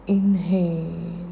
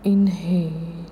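Both takes have the same delivery.

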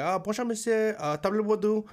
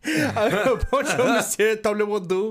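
First: Careful tourist French greeting; rehearsed French, a little proud; mock careful French accent; practiced French. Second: Higher, louder, overdone French with a laugh; hammed-up French accent. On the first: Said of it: "I'm practicing the whole way". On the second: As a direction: lay the French on thick, laughing. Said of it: "Oh, Pink Panther head ass".

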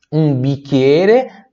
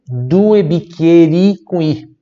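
First: "bicchiere" stretched slowly; slow singular form. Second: "due" raised and stressed, slow; stressed plural. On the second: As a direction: emphasise "due bicchieri". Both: Shown as a demonstration. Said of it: "singular vs plural drill".

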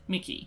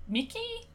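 First: Said in the usual way. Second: Unsure question. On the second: Shown as a demonstration. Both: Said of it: "Is that how you say".

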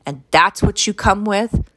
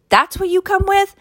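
First: Said in the usual way. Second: Incredulous repeat. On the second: Real, not acted. Mocking the woman's choice, high and incredulous. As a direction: throw the question back in shock.

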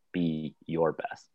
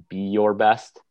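First: "your" leaned on, slow and softer; stress on YOUR. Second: Said in the usual way. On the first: Shown as a demonstration. Host showing how one word shapes meaning, stressing your. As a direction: linger on "your" in "be your best". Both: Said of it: "the shaping of a single word".

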